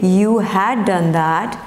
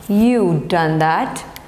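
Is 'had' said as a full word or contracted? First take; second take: full; contracted. First: The word 'had' is said in full. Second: 'Had' is reduced to a 'd' sound. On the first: "you had is you'd" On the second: "you had is you'd"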